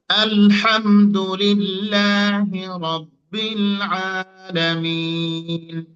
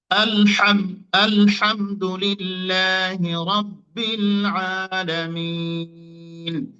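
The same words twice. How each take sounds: First: Sung, Quran recitation. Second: Slow chanted recitation with long held vowels; sung, Quran recitation. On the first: Teacher recites Al-Fatiha again as a model, chanted. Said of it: "দেখেন". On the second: Teacher recites Al-Fatiha to show the letters, chanted. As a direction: chant it slowly, stretching each vowel. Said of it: "যেমন আমরা সূরা ফাতিহাটা খেয়াল করি". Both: Shown as a demonstration.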